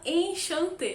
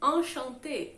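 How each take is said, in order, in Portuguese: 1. A primeira vogal nasal soa como 'en'. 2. A primeira vogal nasal soa como 'an'. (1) "é muito difícil pra mim falar errado" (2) "você vai ler como se fosse an"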